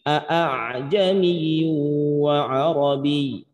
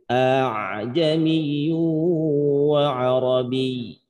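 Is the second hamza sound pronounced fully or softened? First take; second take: full; softened. First: The second hamza is pronounced fully and sharply. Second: The second hamza is softened toward a long a. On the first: The speaker calls it wrong. "bukan dibaca dengan" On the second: The speaker calls it right. "tapi bacanya"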